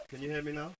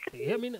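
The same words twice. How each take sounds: First: Louder, to be heard; speaking up. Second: Said in the usual way. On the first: Real, not acted. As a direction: project so the caller hears. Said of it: "wanted the gentleman to speak up". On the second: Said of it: "host echoes guest mockingly".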